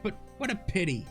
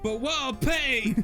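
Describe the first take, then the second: First: It is read in the reader's ordinary voice. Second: It is read in a put-on character voice.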